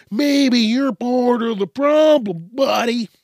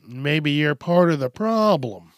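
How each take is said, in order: First: Higher, louder and slower, a taunting repeat; mocking jab. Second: Said in the usual way. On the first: Real, not acted. To critics, repeating the point as a taunting dig. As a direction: rub it in like a smug dare. Repeats line, pushing it at viewer.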